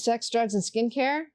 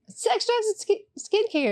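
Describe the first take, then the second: First: It is said in a polished, professional announcer manner. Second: It is said in a loose, casual, stumbling manner. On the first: "That sounded kind of professional a little bit" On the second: "Usually it's a little bit more like"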